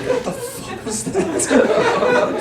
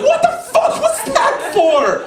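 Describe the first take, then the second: First: High, slow, stretched-out squeak; baffled disbelief. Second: High, drawn-out cry of protest; outraged mock yell. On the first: Retold or imitated. Brother left alone after sister's outburst, baffled squeak. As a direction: drag it out in stunned bewilderment. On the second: Brother just slapped by his sister, outraged yelp. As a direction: stretch it into a high indignant yelp.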